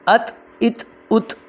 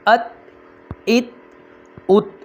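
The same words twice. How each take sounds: First: The final t sound is clearly audible. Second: The final t sound is kept silent. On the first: The speaker calls it wrong. "इस तरह पढ़ना ये गलत है" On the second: The speaker calls it right. "इस तरह आपने पढ़ना है जैसे"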